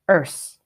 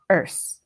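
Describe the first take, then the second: First: The word ends with an S sound. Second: The same.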